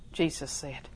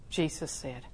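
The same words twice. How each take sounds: The two takes are said the same way.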